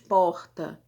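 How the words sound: It is said with a Carioca R.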